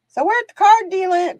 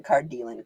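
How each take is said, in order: First: "card dealing" called out much higher and louder; sing-song announcement. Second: Low repeat. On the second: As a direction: echo "card dealing" down low. Repeat after high call. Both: Acted.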